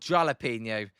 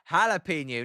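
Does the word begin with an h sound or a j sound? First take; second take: j sound; h sound. First: The word begins with a j sound. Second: The word begins with an h sound. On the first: "I don't say jolly" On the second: "I say ha- jalapeno"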